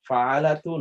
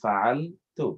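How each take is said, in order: First: An extra vowel is said between L and T. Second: The L runs straight into the T. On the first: The speaker calls it wrong. "ফাআলাতু এটা উচ্চারণ করতে কষ্টকর।" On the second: The speaker calls it right. "easy to pronounce"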